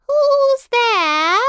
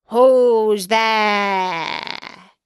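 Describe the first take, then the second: First: Put-on very high, loud old granny call; grandmother. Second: Wolf. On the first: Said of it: "The good grandmother". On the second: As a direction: call out as the wolf, long and loud. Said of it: "said the wolf". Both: A narrator's reading.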